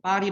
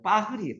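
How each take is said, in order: First: The r is a plain tapped r sound. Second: The r is a breathy, h-like throat sound.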